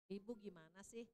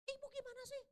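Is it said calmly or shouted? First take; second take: calmly; shouted. First: It is said in a calm, low voice. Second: It is said loudly, with a raised voice.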